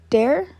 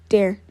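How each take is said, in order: First: The voice rises at the end, like a question. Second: The voice falls at the end, like an answer.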